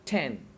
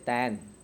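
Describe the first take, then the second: First: The T sound is strong and forceful. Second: The T sound is soft with little force. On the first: "American they put so much sound on T sound like ten" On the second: "Indian they say ten"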